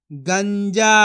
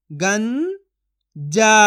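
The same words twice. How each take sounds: First: Said in the usual way. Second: गंजा split as "गं", long pause, "जा"; syllable by syllable. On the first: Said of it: "तो मिलके बन जाएगा". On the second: Shown as a demonstration. Teacher sounds out गंजा for learners, syllable by syllable. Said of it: "एक एक अक्षर का उच्चारण करके".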